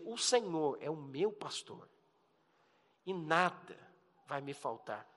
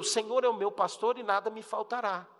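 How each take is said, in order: First: It is read warmly, with heartfelt personal feeling. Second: It is read plainly, without personal feeling.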